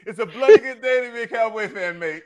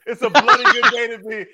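First: Hammed-up British accent, higher; a bad British accent, pitched up. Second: Laughing through a mock British accent; half-laughing British accent, higher and louder. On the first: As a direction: do a cheesy British bloke for the Cowboys. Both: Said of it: "the second time you tried to do a British accent".

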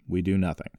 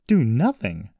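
First: Said in the usual way. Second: Louder, higher incredulous echo; indignant exclamation; exclaiming. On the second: A narrator's reading. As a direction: throw it back as a disbelieving question. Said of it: "Jessie exclaimed".

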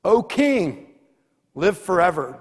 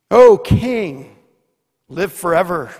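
First: Daniel answers. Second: Daniel calls out. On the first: Daniel answers the king from the den, lightly called. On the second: Daniel calls up to the king from the den, loud. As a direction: shout it up to the king. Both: Acted. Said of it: "And Daniel says".

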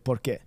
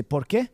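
First: "por qué" flat and falling, no rise; answer tune. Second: "por qué" with a rise on "qué"; question tune. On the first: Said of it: "you answer with". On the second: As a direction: ask it, lifting "qué". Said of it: "in Spanish you say". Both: Shown as a demonstration.

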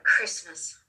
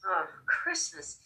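First: Said in the usual way. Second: Soft, slow Christmas with a drawn-out oh; dawning realization. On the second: Retold or imitated. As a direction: let Christmas sink in slowly and softly.

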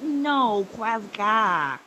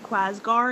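First: Loud correcting Quasgar, ending in "ah"; firm Quasgar, final syllable an open "gah". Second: Quasgar with an R on the end, questioning; loud, puzzled Quasgar ending in a clear R; R pronounced. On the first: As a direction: correct them: Quasgar with the R dropped. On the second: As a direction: ask "Quasgar?" sounding the final R. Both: Acted. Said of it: "no R on the end".

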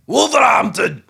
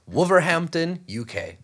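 First: Hype shout. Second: Said in the usual way. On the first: Acted. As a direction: shout Wolverhampton high and loud. Hyped shout of city name.

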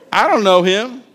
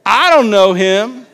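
First: Dismissive mock denial; lightly acted defensive denial; mild denial. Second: Louder, higher, drawn-out denial; emphatic acted protest; insistent denial. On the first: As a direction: brush off the accusation, acted. Acts Peter's first denial. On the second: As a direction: deny it forcefully, stretching the words. Acts Peter's louder second denial.

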